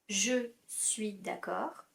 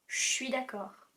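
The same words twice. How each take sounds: First: 'Je' is said in full with its vowel. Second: 'Je' is shortened to a 'sh' sound.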